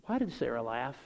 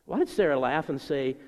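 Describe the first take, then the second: First: Low, restrained question from God; a little bothered. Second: Bothered question, sharper opening; intensity picking up. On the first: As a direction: ask it with understated displeasure. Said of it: "God seems a little bothered". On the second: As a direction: press the question, mildly put out. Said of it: "There's some intensity picking up". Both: Retold or imitated.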